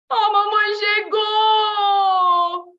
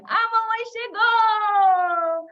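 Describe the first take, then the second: First: Grito agudo de pânico, bem arrastado; susto de flagrante. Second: Comemoração aguda, alta e esticada; alegria. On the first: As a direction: avise apavorado, pego no meio da bagunça. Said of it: "ela chega antes do esperado". (alarme de criança pega aprontando) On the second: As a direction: anuncie a mãe com alegria de criança. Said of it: "de alegria". (grito alegre de criança, arrastado) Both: Shown as a demonstration.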